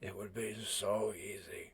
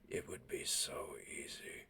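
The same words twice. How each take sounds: First: It is said louder, at fuller volume. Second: It is growled quietly under the breath.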